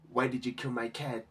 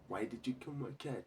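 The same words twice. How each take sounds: First: It is said calmly, without emotion. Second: It is said with tearful, crying emotion.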